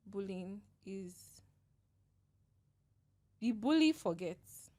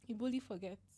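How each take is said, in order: First: Slow, tearful and halting; fighting back tears, long pauses; after crying. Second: Soft, tearful and shaky; after crying. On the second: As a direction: quietly, still in tears. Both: Real, not acted. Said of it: "That was a good cry".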